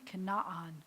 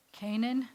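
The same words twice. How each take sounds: First: "kana'an" as kuh-na-AN with separate final ah; Hebrew pronunciation. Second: "Canaan" said KAY-nun, two syllables; English pronunciation. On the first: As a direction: Hebrew "kana'an", short first vowel, open ah sounds. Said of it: "it's not Canaan. It's a bad transliteration". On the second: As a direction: say "Canaan" the English way, long A first. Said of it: "how do you say that in English". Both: Shown as a demonstration.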